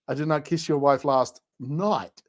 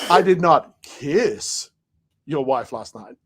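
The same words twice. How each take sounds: First: The stress falls on the word night. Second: The stress falls on the word kiss.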